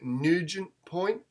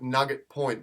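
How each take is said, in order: First: "Nugent" pronounced NEW-jent; alternative pronunciation. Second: "Nugget" with a short vowel and hard g; literal reading. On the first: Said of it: "I believe it might be like". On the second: Host giving their own guess at a place name, literal "Nugget". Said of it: "I would pronounce it". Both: Shown as a demonstration.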